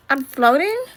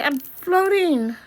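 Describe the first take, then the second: First: Rising, wondering question; puzzled floating question. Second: High, slow, awestruck; high and slow, marvelling at floating; amazed delight. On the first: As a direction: ask it as if unsure it is real. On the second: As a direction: savour the wonder of floating. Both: Acted. Discovering he is floating.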